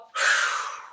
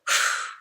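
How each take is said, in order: First: Long breathy sigh out; demo sigh. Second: Firm blown-out exhale; blowing out breath. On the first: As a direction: sigh it all out to show them. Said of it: "and then you go". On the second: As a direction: blow the air out through the lips. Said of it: "I really like, like, blowing it out". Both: Shown as a demonstration.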